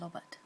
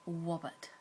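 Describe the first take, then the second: First: The first sound is an L. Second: The first sound is a W. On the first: "pronounce the R sound like a L" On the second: "it will come out like a W sound"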